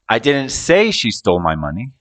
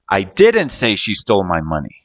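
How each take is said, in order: First: The word "say" is stressed. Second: The word "didn't" is stressed. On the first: It was implied or thought, not said. "I might have implied it or thought it, but didn't say it" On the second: The speaker denies saying it at all. "So I'm denying the action of saying it"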